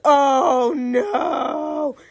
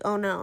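First: It is said loudest and biggest. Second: It is said louder and bigger.

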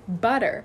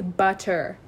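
First: The t in the middle is soft, like a d. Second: The t in the middle is crisp and released. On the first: "I just say butter" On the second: "I don't say butter"

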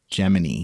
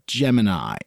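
First: The last syllable sounds like 'knee'. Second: The last syllable sounds like 'eye'. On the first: "like knee, K-N-E-E" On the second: "pronounced like eye and eyeball"

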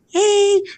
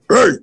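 First: It is said in a high, boyish voice. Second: It is said in a deep, broken voice.

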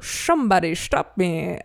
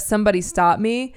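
First: The s sounds are said as a hissy sh. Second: The s sounds are said as a plain s. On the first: "I do everything through an SH" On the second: "instead of somebody stop me"

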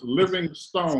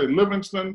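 First: The last syllable is said as a full 'stone'. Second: The last syllable is reduced to a short 'stun'. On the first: The speaker calls it right. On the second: The speaker calls it wrong. "you say Livingston, they will correct you"

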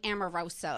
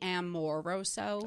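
First: The name is said with an American pronunciation. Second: The name is said with a non-American pronunciation. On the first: The speaker calls it wrong. "I say I'm so American. Like, I'm like Amoroso" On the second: The speaker calls it right. "It's probably Amoroso. If you were really being correct"

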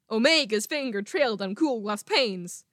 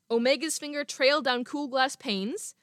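First: Every other syllable is stressed in an exaggerated way. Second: It is read with natural, unexaggerated stress.

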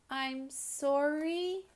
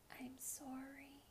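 First: It is said a little bit louder still. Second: It is said just a tiny bit louder.

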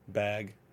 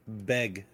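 First: The vowel sounds like the vowel in cat. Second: The vowel sounds like the vowel in beg.

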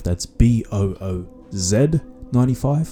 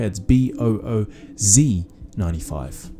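First: It is said in his usual non-American accent. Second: It is said in an American accent.

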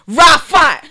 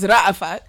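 First: The name is said in a Brooklyn accent. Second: The name is said without a Brooklyn accent. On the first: This is how people in Brooklyn say the name. "in Brooklyn it's Rafat" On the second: This is the name as it is actually said. "actually my name's Rafat"

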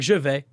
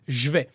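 First: Both words are pronounced fully and carefully. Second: The words are squeezed together in a reduced form. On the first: This is the grammatically correct form taught in class. "instead of saying je vais" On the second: This is how people really speak in everyday French. "they say je vais"

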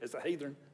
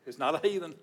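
First: Heathen is said Southern-style with an added R. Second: Heathen is said without an added R.

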